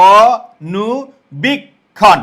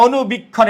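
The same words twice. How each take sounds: First: অনুবীক্ষণ stretched very slowly, every sound held; slow and drawn out. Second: Said in the usual way. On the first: Shown as a demonstration. Teacher slowly pronouncing the word for the class. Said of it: "আমরা বলি না অনুবীক্ষণ". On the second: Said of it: "এরকম বলি না".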